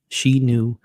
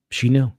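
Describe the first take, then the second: First: SHE knew, the word she pressed hard; "She" said louder and held; stress on she. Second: She KNEW, the word knew pressed hard; "knew" said louder and held; stress on knew. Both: Shown as a demonstration.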